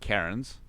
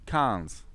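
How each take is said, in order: First: The word is said with an R sound. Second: The word is said without an R sound. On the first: The speaker calls it wrong. "It's not Karens" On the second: The speaker calls it right.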